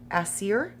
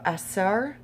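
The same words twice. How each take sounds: First: "Aser" said like "ASS-ee-er", rising; unsure "Aser" ending in "seer"; second pronunciation attempt. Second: "Aser" said like "ass-ARR", rising; unsure "Aser" ending in "sar"; tentative pronunciation. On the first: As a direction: try "Aser" with an EE-er ending, questioningly. Second try at unfamiliar name. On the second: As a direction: try "Aser" with an open AR ending, questioningly. Tries pronunciation of unfamiliar name. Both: Real, not acted.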